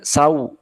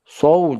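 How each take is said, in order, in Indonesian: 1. Vokalnya meluncur dari a ke u. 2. Vokalnya tetap satu bunyi o yang stabil. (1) "jangan berubah jadi sau" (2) "konsisten so"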